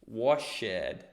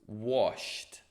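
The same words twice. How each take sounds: First: The ending is a separate 'ed' syllable. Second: The ending is a short 't' sound. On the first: The speaker calls it wrong. "não vou dizer" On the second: The speaker calls it right. "colocar um sonzinho de um T"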